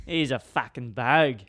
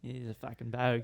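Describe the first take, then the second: First: Slow, broad Australian bogan impression; imitated bogan accent. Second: Put-on softly tried-out Australian bogan accent; quiet, throwaway bogan accent impression; imitated bogan accent. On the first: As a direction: draw out the bogan accent at full voice. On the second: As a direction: mimic an Australian bogan under your breath. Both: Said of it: "how a bogan talks".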